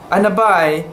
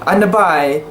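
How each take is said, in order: Both takes have the same delivery.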